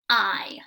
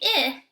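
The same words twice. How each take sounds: First: The vowel is said as a long i. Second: The vowel is said as a short i. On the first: The speaker calls it right. "I makes the long I sound" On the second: The speaker calls it wrong. "it's not going to say I"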